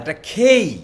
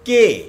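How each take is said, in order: First: The K is said with a strong puff of air. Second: The K is said plain, without aspiration. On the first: The speaker calls it right. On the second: The speaker calls it wrong. "এটা কে না"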